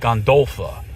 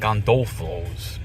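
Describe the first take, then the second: First: The name ends with an 'ah' sound. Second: The name ends with an 'ohs' sound. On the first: The speaker calls it right. "but it's Gondolfa" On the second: The speaker calls it wrong. "I keep saying Gondolfos"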